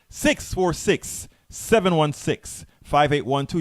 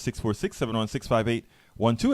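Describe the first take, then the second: First: The number is read at a slower pace. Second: The number is read at a quicker pace.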